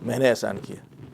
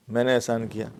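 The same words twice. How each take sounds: The two takes are said the same way.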